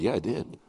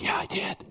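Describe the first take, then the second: First: Said in the usual way. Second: Quietly murmured yes; hushed reply. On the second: Retold or imitated. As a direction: keep it hushed, like a secret. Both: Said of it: "I didn't whisper".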